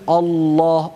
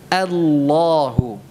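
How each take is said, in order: First: The opening vowel is thick, sounding like o. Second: The opening vowel is thin, sounding like a. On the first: The speaker calls it wrong. "diucapkan tebal Allah o o tidak a" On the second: The speaker calls it right. "Mari kita ucapkan ya dengan benar"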